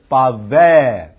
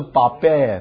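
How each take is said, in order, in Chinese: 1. 中间的辅音是v音。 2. 中间的辅音是b音。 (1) "所以读v 的音" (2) "不是bavar， bavar 是b 的音"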